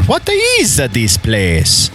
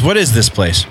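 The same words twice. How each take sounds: First: It is said with a put-on character accent. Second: It is said in a plain, everyday voice. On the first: "So that would have been the accent" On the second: "That's basically just his regular talking voice"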